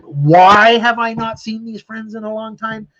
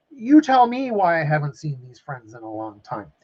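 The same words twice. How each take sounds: First: High, loud, slowed rhetorical question; indignant outburst. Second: Said in the usual way. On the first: Real, not acted. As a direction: stretch it out in real exasperation. Rhetorical outburst about absent friends.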